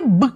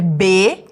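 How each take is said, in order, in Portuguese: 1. É dito como um som consonantal curto e simples. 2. É dito como o nome completo da letra. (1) "aprender o som, que é B" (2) "o nome da letra, que é B"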